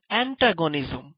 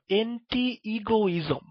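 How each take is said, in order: First: Said in the usual way. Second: অ্যান্টি ইগোইজম said slowly as two words, anti then egoism; memory-aid pronunciation. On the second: Shown as a demonstration. (ধীরে ধীরে অ্যান্টি আর ইগোইজম আলাদা করে উচ্চারণ) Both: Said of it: "এই শব্দটাকে তোমরা এইভাবে উচ্চারণ করো".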